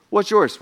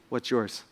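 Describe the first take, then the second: First: Said in the usual way. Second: Hushed question. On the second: Shown as a demonstration. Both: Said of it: "My question for you this morning is".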